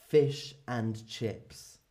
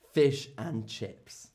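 No difference in how they are said.

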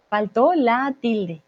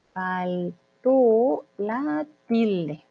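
First: Deliberate "Faltó la tilde", lightly slowed; teacher's measured first take of "Faltó la tilde"; slow model phrase. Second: Extremely drawn-out "Faltó la tilde", split by syllable; word-by-word crawl through "Faltó la tilde"; very slow dictation. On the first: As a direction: say "Faltó la tilde" slowly and connected. Teacher gives phrase, then slows it. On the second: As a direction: stretch each syllable of "Faltó la tilde" with gaps. Teacher repeats phrase much slower. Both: Shown as a demonstration.

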